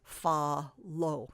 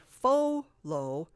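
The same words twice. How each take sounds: First: "fa lo" with first vowel a short AH; short vowel sound. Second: "fo lo" with first vowel a long OH; wrong long O. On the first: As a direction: sound out "fa lo", FA as in father. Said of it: "it says the ah, or the short sound". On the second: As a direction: say "fo lo" slowly, rhyming FO with go. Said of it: "that doesn't say". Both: Shown as a demonstration.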